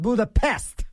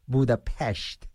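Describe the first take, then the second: First: The last syllable is said with a plain s. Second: The last syllable is said with an sh sound. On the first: The speaker calls it wrong. "Not Budapest" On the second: The speaker calls it right. "Not pest"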